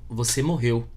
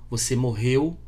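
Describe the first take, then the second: Both takes have the same delivery.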